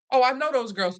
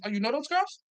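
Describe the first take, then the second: First: Acted statement, GIRLS falling at the end; retold casual claim. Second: Put-on softer echo, GIRLS rising into a question; retold challenging question. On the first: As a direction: say "girls" as a settled fact, voice dropping. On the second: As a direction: throw it back, lifting "girls" at the end. Acted echo questioning the claim.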